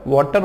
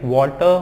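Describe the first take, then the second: First: वाटर with a hard र at the end; sounded R. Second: वाटर as "waw-tuh", final र dropped; silent R. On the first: Teacher rejects the common reading, sounded R. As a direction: close वाटर on a full r. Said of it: "वाटर होता ही नहीं है". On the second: Teacher gives the correct reading, silent R. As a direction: end वाटर on an open uh. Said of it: "वाटर होता है". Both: Shown as a demonstration.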